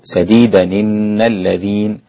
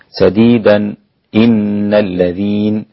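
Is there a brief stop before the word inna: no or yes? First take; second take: no; yes. First: The words run together without a stop before inna. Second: There is a brief silent stop before inna. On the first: "أو" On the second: "والسكت لحمزة بخلف عن خلاد هكذا"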